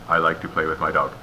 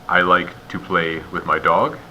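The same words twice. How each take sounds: First: It is run together with no pauses. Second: It is paused at natural phrase breaks. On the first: The speaker calls it wrong. "or no pauses" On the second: The speaker calls it right. "that's good"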